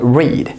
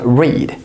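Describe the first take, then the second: First: The vowel is long, rhyming with need. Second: The vowel is long, rhyming with need.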